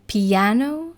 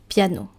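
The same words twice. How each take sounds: First: It is pronounced the English way. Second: It is pronounced the French way. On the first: "In English" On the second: "In French"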